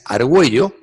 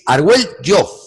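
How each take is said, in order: First: The double L has the common modern sound. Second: The double L has the old Castilian sound. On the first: This is the everyday pronunciation. "La que conocemos de toda la vida" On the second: This pronunciation is rare and comes from Old Spanish. "tiene otra que apenas se utiliza. Proviene del eh, castellano antiguo"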